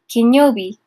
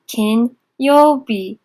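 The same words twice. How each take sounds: First: Said in the usual way. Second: Very slow syllable-by-syllable. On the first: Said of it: "teacher models kanji reading". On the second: Shown as a demonstration. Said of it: "teacher stretches reading slowly".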